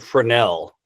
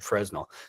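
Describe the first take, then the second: First: The s in the middle is silent. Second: The s in the middle is pronounced. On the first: This is how someone else says it. "you say Fresnel, Danny" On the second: This is how the speaker always said it. "I always said Fresnel"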